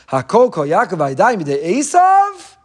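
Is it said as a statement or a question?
question. It is said as a questioning question.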